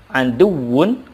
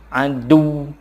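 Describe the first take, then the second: First: The word ends with its full final syllable. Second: The ending is dropped, with a pressed final sound.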